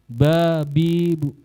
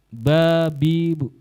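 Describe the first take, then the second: The two takes are said the same way.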